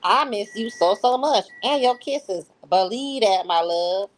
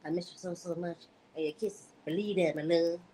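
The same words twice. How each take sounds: First: Higher, louder read of a loving text, the voice later redone; a first try at the lover's voice, pitched up and pushed louder; wrong voice first take. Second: Much softer, hushed read of the lover's text; Ernest's voice redone. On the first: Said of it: "I'm sorry, I messed that up". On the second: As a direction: redo it softly in the man's voice, lightly voiced. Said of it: "Let me redo that". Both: Acted.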